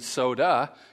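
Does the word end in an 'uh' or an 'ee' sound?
uh. The word ends with an 'uh' vowel. "you wouldn't say soda"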